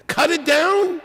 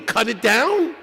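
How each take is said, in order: First: Jumps much higher in mock disbelief; incredulous repeat. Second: Said in the usual way. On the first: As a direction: ask it again as if the idea is absurd. Question asked twice.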